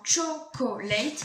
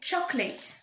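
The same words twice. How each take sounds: First: The word is said with three syllables. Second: The word is said with two syllables. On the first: The speaker calls it wrong. "Si on disait comme ça réellement, chocolate, il y aurait trois syllabes" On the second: The speaker calls it right. "ils vont supprimer la lettre O... il n'y aura plus que deux syllabes"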